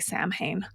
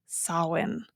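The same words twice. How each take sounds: First: It is said as the spelling looks. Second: It is said the Celtic way, unlike its spelling. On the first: The speaker calls it wrong. "that is how it looks" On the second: The speaker calls it right. "That is how we pronounce that word"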